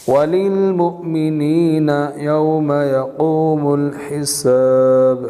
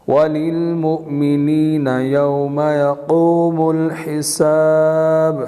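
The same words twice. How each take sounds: Both takes have the same delivery.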